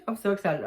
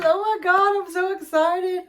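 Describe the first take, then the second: First: Said in the usual way. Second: High, loud and thrilled; excited squeal. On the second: Real, not acted. Unboxing a friend's gift, she squeals with excitement. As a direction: burst out with delight, much higher.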